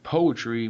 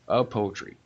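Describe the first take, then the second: First: The word starts directly with the p sound. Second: A short vowel sound comes before the word. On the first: "instead of saying poetry" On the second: "we go a poetry"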